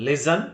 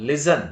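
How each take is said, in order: The two takes are said the same way.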